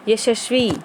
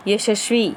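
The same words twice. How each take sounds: The two takes are said the same way.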